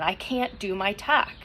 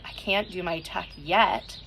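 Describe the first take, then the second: First: Said in the usual way. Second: "yet" added at the end, slow, with the line lifted onto it; stress on yet. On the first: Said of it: "your negative self-talk is coming in". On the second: Shown as a demonstration. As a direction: land the new word "yet" firmly, slowly. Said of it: "Okay, we'll change it".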